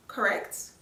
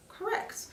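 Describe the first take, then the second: First: Said in the usual way. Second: "Correct." squeaked much higher, whispered; high squeaky answer. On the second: Pretend. Answers own question.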